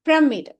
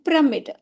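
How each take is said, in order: First: The first syllable has a short 'i' vowel. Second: The same.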